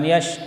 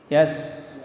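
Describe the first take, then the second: First: The middle consonant is a 'sh' sound. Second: The middle consonant is an 's' sound. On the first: The speaker calls it wrong. "bukan yash" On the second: The speaker calls it right. "tapi yas"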